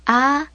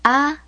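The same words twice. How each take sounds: First: A drawn out long; lengthened, open "A" sound; long A vowel. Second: A as in father, held briefly; short, open "A" sound; short A vowel. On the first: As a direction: hold the A of father for a long beat. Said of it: "Vowels are also pronounced in the long form". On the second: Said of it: "Vowel sounds". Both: Shown as a demonstration.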